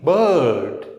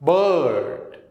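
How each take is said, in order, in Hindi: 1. स्वर की ध्वनि खींचकर लंबी है। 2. स्वर की ध्वनि खींचकर लंबी है।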